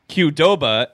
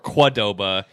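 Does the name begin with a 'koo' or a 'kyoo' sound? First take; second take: kyoo; koo. First: It begins like the letter name Q. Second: It begins with a plain 'koo' sound.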